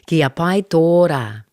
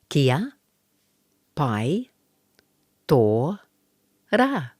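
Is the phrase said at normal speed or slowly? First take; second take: normal speed; slowly. First: The phrase is said smoothly at normal speed. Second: The phrase is said slowly, word by word. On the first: "Now we'll put it all together" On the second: "We'll do it slowly first"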